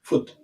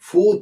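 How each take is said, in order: First: The vowel is short, like in look. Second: The vowel is long, like in moon. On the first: The speaker calls it right. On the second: The speaker calls it wrong.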